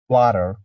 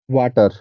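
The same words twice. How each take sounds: First: The word is said in an American accent. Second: The word is said in an Indian accent. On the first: "In American accent, I'm not sure, but maybe it's like water" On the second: "in India, we say water"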